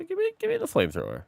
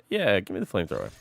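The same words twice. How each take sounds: First: Much higher, fast squeal; squeaky high voice. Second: Said in the usual way. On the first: Acted. Excited high squeal over new weapon.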